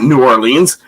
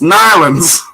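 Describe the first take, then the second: First: The name is said in full, syllable by syllable. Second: The name is clipped into two quick syllables. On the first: This is how outsiders say it. The speaker calls it wrong. "it's not New Orleans" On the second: This is how people from there say it. The speaker calls it right. "it's Nylands"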